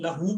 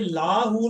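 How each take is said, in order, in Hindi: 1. पहला स्वर छोटा रखा जाता है। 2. पहला स्वर लंबा बोला जाता है। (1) "लहू पढ़ना" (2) "ये लाहू नहीं पढ़ना आपने"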